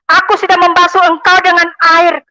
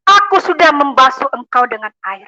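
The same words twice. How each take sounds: First: Higher and louder second time; preacher raising the quoted words of Jesus; louder repeat. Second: Said in the usual way. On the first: Retold or imitated.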